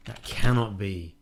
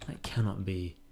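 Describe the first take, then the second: First: CANNOT hit louder, the phrase drawn out slowly; emphatic disbelief. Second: Said in the usual way. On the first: Acted. Player refusing to believe there are two Jesters, loud stress on "cannot". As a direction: punch the word "cannot" in slow, loud disbelief.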